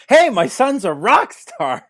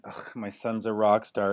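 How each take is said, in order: First: Much higher, louder, slow Hey, my son's a rock star bragging; mock proud dad. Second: Lower, grumbling Ugh, my son's a rock star with a groan; mock disgusted dad. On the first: Dad after his son's fame, mock proud boast. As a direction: crow it out like a bragging father. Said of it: "And now it's". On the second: Teen rocker's dad before success, mock disgusted. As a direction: sneer it like a fed-up father. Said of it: "your dad must have been".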